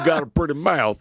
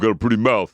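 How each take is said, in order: First: It is said in a Southern US accent. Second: It is said in a New Jersey accent. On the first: The speaker calls it right. "it was definitely definitely a southern accent" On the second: The speaker calls it wrong. "It wasn't a Jersey accent. It was like"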